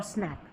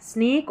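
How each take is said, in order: First: "स्नैक" with a short open "a", as in cat; "स्नैक" said as "snack", set against snake; short-A contrast. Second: "स्नेक" with a long "ay", as in snake; "स्नेक" said as "snayk", set against snack; long-A contrast. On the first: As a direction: open the jaw on the vowel of "स्नैक". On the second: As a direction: hold a closed "ay" vowel in "स्नेक". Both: Shown as a demonstration. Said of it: "फ़र्क है इनमें".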